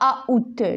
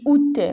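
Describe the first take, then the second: First: An 'a' vowel is sounded before 'oût'. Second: No 'a' vowel is sounded before 'oût'. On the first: The speaker calls it wrong. "je dis pas A out" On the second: The speaker calls it right. "je dis out"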